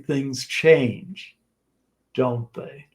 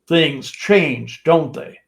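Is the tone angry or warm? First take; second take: warm; angry. First: It sounds soft, warm and smiling. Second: It sounds hurt and a bit angry.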